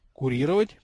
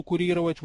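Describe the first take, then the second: First: "Курировать" with the pitch rising at the end; questioning echo. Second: Said in the usual way. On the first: A narrator's reading. Boy queries the goblin's unfamiliar word, questioning echo. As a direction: ask "Курировать" back as a puzzled question. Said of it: "переспросил Гарольд".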